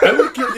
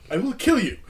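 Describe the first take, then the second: First: Put-on Indian accent. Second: Put-on a laughing, light Indian accent on the threat; hint of a coworker's Indian accent, half laughing; lightly imitated Indian-accented coworker threatening; mock Indian accent. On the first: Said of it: "He has a heavy Indian accent". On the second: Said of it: "impersonate his accent".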